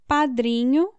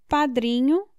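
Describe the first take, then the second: Both takes have the same delivery.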